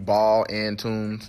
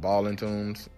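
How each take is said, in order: First: Each word is said separately and carefully. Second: The words run together quickly, like Ballin'. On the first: This is the official form of the name. "it's technically Ball and Tunes" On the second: This is the casual everyday way of saying it. "I say it fast, so it's kind of like"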